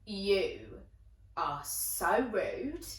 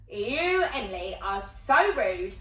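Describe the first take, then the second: First: Very slow, spaced-out telling-off; slow reproach. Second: Raised, slow, emphatic telling-off; indignant reproach. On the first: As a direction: spell out the disapproval word group by word group. Friend scolds her, first delivery. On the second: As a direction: scold a friend with rising indignation. Friend scolds her, stronger delivery. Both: Retold or imitated.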